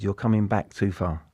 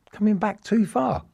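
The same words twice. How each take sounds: First: Said in the usual way. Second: Amazed echo. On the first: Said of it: "Arsene said to me". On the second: Retold or imitated. Echoing the manager's surprising instruction.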